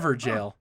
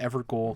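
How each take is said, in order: First: The last syllable sounds like jail. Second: The last syllable sounds like goal. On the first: The speaker calls it right. "G A O L is the original English spelling of the word jail" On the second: The speaker calls it wrong. "I called it Evergoal"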